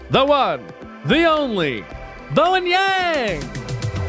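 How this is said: It is said in a showy announcer voice.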